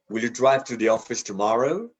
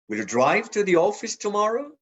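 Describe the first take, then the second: First: The stress falls on the word tomorrow. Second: The stress falls on the word drive. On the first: This is the ordinary, neutral question. "we typically stress the last word" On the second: The question is about driving rather than taking the bus. "drive, not take the bus"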